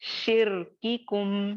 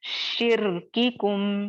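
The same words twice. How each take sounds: Both takes have the same delivery.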